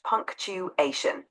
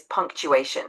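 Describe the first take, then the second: First: "punctuation" slowly as punc, tu, ation; careful pronunciation. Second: Said in the usual way. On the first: Shown as a demonstration. Tutor showing a learner how it's pronounced, "punctuation" slow and divided. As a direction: spell out the sounds of "punctuation" slowly. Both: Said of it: "It's pronounced punctuation".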